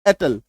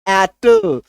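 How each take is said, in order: First: The word is said plainly, without extra force. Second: The word is said with extra force. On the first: "आप normal उसको बोलेंगे" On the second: "थोड़ा जोर डाल के बोलेंगे"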